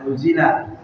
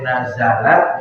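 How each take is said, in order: First: The first vowel is a rounded u. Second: The first vowel is an open a. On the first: The speaker calls it wrong. "boleh nuzilat" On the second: The speaker calls it right. "tapi lebih bagus dibaca nazarat"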